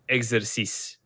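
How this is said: The word has a French pronunciation. "But in French, it would be exercice"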